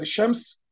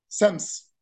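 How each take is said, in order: First: The word is said with a sh sound. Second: The word is said with an s sound.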